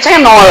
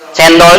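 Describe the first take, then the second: First: The word drops its d sound. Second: The word keeps its d sound. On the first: The speaker calls it wrong. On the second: The speaker calls it right.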